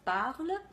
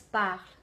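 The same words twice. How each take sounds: First: The ending of the word is fully pronounced. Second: The ending of the word is cut off. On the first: The speaker calls it right. "instead of parle" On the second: The speaker calls it wrong. "they are cutting the ending of the words"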